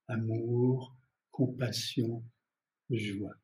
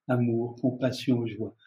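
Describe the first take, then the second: First: The words are said at a slower pace. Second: The words are said at a quicker pace.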